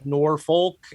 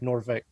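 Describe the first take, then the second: First: It is pronounced the way a newcomer says it. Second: It is pronounced the way local residents say it. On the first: The speaker is not from the area. The speaker calls it wrong. "when I moved down here, I was like" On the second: The speaker grew up in the area. The speaker calls it right. "everybody's like"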